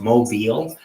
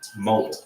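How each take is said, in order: First: The stress is on the second syllable. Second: The stress is on the first syllable. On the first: It sounds like the name of a city. The speaker calls it wrong. "like Mobile, Alabama" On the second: The reader focuses on the red O. The speaker calls it right. "causes a reader to pause on it and focus on it"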